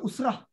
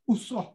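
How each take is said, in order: First: Usrah said as "usrah" with an open a; wrong pronunciation. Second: Usrah said as "usroh" with a rounded o; correct pronunciation. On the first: Ustaz showing students the wrong way, "Usrah" as "usrah". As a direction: Usrah ending in a flat "-rah", the way not to say it. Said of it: "Bukan Usrah". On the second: Ustaz spelling out the group name for students, "Usrah" as "usroh". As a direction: Usrah ending in "-roh". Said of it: "Usrah ni U S R O H". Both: Shown as a demonstration.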